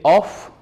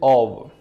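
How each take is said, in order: First: The word ends with an f sound. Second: The word ends with a v sound. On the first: The speaker calls it wrong. "some people they say off, but it is not off" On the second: The speaker calls it right. "it is of"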